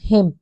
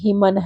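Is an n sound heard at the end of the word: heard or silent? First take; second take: silent; heard. First: The word ends without any n sound. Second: A final n sound is pronounced at the end. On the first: The speaker calls it right. "ये जो एन है वो silent है" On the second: The speaker calls it wrong. "कुछ बोलेंगे हिमन है"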